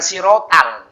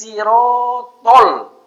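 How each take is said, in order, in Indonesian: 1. Vokal terakhir terdengar seperti a. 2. Vokal terakhir terdengar seperti o.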